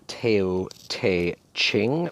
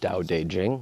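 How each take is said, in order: First: It is pronounced the way the spelling looks. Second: It is pronounced differently from the spelling. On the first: The speaker calls it wrong. "Looks like Tao Te Ching" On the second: The speaker calls it right. "but it's Tao Te Ching. That's how you pronounce it"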